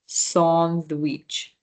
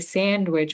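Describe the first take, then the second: First: The first vowel is an open 'ah' sound. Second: The first vowel is the English 'a' sound. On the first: "but in French it's the ah sound" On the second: "in English we say sandwich"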